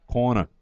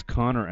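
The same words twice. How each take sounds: First: "Corner" said as a Boston "Connor"; Boston accent. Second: Said in the usual way. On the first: Shown as a demonstration. Announcer shows how Boston says Connor, mock Boston accent. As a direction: say "Corner" the Boston way, R dropped at the end. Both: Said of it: "That's how they say it in Boston".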